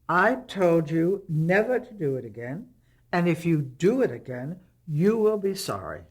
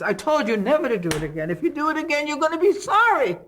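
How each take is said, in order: First: It imitates a German Jewish mother's manner. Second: It imitates an Italian-American mother's manner.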